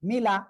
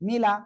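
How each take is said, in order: No difference in how they are said.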